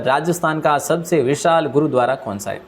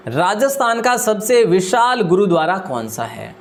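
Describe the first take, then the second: First: Said in the usual way. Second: Slower, deliberate second reading; slow reread. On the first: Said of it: "teacher reads quiz question". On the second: Shown as a demonstration. Teacher repeating the quiz question for students, slowly. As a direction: spell the question out again, word by word. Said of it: "teacher rereads question slowly".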